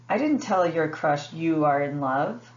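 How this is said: The word you carries the main stress. The crush was told someone was in love, not who. "the word em emphasized is you"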